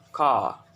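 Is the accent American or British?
British. It is said in a British accent.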